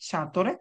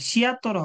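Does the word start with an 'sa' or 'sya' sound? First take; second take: sa; sya. First: The first syllable has no glide: sa. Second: The first syllable has a 'y' glide: sya. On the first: The speaker calls it right. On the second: The speaker calls it wrong. "সিয়াতরে হবে না"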